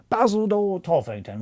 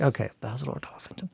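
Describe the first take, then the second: First: Basil Lord Toffington pitched much higher; high trial voice for the character; trying a voice. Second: Said in the usual way. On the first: Shown as a demonstration. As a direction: test the name in a lifted put-on voice. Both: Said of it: "Well, he's Cockney".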